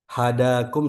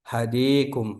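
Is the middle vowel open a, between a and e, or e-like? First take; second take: open a; e-like. First: The middle vowel is a plain open a. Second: The middle vowel is tilted close to e.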